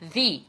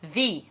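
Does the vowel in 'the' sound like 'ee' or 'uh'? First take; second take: ee; ee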